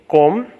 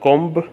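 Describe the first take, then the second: First: The final B is left silent. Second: The final B is pronounced aloud. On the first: The speaker calls it right. "so silent B" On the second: The speaker calls it wrong.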